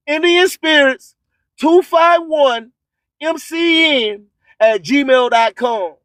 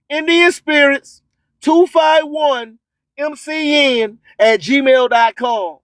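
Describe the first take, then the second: No difference in how they are said.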